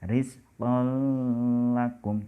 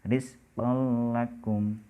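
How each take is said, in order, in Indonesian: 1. Bunyi sengau ditahan sebelum l. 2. Bunyinya langsung menyatu ke l. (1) "tidak boleh dibaca" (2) "langsung dimasukkan saja"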